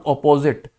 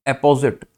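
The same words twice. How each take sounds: First: Opposite with a rounded "o" start, o-po-zit; teacher contrasting opposite; opposite, the wrong word. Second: अपोजिट with an open "a" start, a-po-zit; teacher's careful apposite; apposite, not opposite. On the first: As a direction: say opposite with the "o" of "hot" to set it apart. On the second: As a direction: say अपोजिट as "apposite", first vowel like "a" in "apple". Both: Shown as a demonstration. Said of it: "not opposite".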